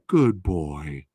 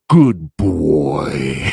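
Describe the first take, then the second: First: It is said in a light, sweet voice. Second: It is said in a creepy, deep voice.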